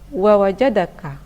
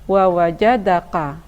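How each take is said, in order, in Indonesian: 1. Bunyi k ringan, dibuat lebih ke depan. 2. Bunyi k dalam, dibuat jauh di belakang. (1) "Seharusnya dibaca wa wajadaka, karena huruf ini adalah huruf kaf, bukan huruf qaf" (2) "ada yang membaca"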